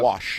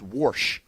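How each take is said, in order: First: It has no r sound, standard style. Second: It has an r sound, Ohio style.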